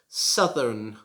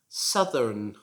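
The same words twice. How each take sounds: No difference in how they are said.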